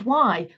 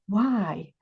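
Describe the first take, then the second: First: The word sounds angry and furious. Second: The word sounds open and curious. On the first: The question keeps you stuck. The speaker calls it wrong. "which is furious" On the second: The question helps you move forward. The speaker calls it right. "which is curious"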